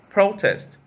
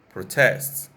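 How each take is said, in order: First: The stress is on the first syllable. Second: The stress is on the second syllable. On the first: It is a noun. "I'll give you the noun first" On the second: It is a verb. "and the verb form"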